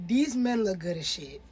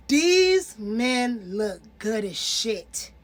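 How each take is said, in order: First: Said in the usual way. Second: "These men look good as shit" drawn out slowly, each word weighed; slow emphatic repeat. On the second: Shown as a demonstration. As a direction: stretch it out for emphasis.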